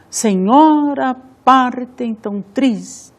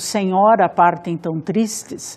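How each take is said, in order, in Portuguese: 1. As sílabas tônicas são martel), num ritmo regular. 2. Lê-se com um ritmo de fala normal.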